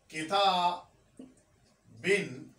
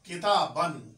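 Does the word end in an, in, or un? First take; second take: in; an. First: The word ends with the sound in. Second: The word ends with the sound an.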